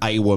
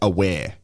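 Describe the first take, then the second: First: The name ends in an 'ah' sound. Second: The name ends in an 'air' sound. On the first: This is how locals usually say it. The speaker calls it wrong. "traditionally here um, they call him Awa Mabil" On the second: This is how the player likes it said. The speaker calls it right. "his his name is pronounced Aware"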